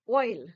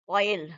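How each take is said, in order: First: The two vowel sounds glide together. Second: The two vowel sounds are said separately. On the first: The speaker calls it right. "It's oil. So O I is pronounced extremely well because we have blended" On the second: The speaker calls it wrong. "We are not saying oil"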